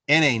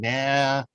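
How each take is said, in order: First: It is spelled out as two letters. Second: It is said as a single word. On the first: The speaker calls it right. "I'm saying N A" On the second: The speaker calls it wrong. "I'm not saying nah"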